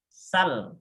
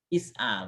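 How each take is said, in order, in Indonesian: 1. Kata "is'al" menghilangkan hamzah dan suku kata pertama. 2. Kata "is'al" tetap mempertahankan hamzahnya di tengah. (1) "Boleh juga hamzahnya hilang" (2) "Boleh is'al"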